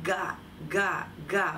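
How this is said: Each syllable is clearly separated from the next. The speaker calls it right. "I'm really trying to separate those consonants from one another"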